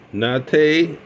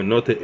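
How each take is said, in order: First: "Notte" said as NAH-tay; open-A pronunciation. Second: "Notte" said as NAW-tuh; rounded-O pronunciation. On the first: Pipe reviewer offering one way to say the model name, "Notte" as NAH-tay. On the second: Pipe reviewer offering the other way to say the model name, "Notte" as NAW-tuh. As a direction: say "Notte" with a rounded aw and a weak uh ending. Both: Shown as a demonstration.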